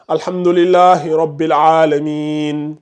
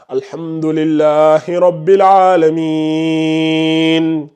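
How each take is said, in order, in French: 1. La voyelle avant la fin est tenue brièvement. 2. La voyelle avant la fin est tenue longuement. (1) "au lieu de lire" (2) "Tu peux prolonger ça jusqu'à six secondes"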